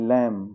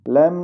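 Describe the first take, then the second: First: लैम ending on m alone; silent b. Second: लैम with a b added after m; b sounded. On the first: Teacher correcting learners, silent b in लैम. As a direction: leave the b off the end of लैम. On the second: Teacher showing the wrong reading, b sounded after लैम. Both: Shown as a demonstration. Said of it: "लैम नहीं".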